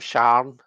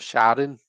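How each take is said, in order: First: It is said as one syllable, Glaswegian style. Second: It is said as two syllables, non-Glaswegian style.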